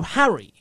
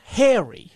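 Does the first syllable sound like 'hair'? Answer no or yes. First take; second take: no; yes. First: The first syllable does not sound like 'hair'. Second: The first syllable sounds like 'hair'. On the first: The speaker calls it right. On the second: The speaker calls it wrong. "not Harry. He's not hair"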